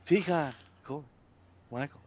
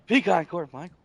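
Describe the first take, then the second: First: The name is said slowly, drawn out. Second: The name is said quickly, rushed. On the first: The speaker calls it right. "There you go" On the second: The speaker calls it wrong. "you're speeding it up. You're speeding your name up"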